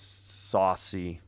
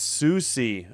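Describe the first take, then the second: First: The first vowel sounds like 'saw'. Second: The first vowel sounds like 'soo'. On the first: The speaker calls it wrong. "I think it's Saucy" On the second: The speaker calls it right. "No, it's Susie"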